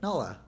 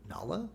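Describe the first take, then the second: First: The name sounds instantly certain, with no doubt. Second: The name sounds puzzled, moving toward recognition. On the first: The character recognizes her at once, with no confusion. The speaker calls it wrong. "It was just like realization" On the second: The character goes from confusion to realization. The speaker calls it right. "in the first one, it was like he was like, wait"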